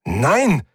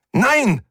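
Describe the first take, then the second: First: Higher alarmed cry of no; the first cry as control slips away; rising panic, first of two; panicked no. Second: Much higher, louder desperate shriek; the second cry, now in full panic. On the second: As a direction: panic peaking on the repeat. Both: Acted. Ship voice losing control.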